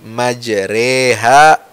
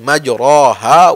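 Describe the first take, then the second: First: The vowel after r leans toward e. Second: The vowel after r is a clear open a. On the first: "ra yang tadinya fathah dibaca agak ya cenderung ke kasrah"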